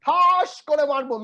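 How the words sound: It sounds like an extreme, terrifying threat.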